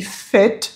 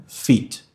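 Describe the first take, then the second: First: "fit" said as "fet"; high-pitched "fit" with eh-like vowel; short-i pronunciation. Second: "fit" said as "feet"; tense ee in "fit"; low "fit" with Portuguese i; wrong long-i version. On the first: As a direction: relax the i of "fit" toward ê. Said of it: "o I com som de E". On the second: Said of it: "e não". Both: Shown as a demonstration.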